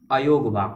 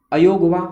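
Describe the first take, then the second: First: Said in the usual way. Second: अयोगवा called out loud and high, last vowel held; emphatic term. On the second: Shown as a demonstration. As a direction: announce अयोगवा with force. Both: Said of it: "क्या बोलते हैं इनको".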